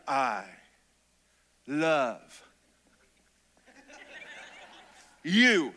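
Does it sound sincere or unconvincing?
sincere. It is said warmly and sincerely.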